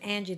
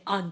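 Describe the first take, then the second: First: The first vowel is a flat short 'a'. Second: The first vowel is an open 'ah' sound. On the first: "if my name is Angie" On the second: "they'll say Angie"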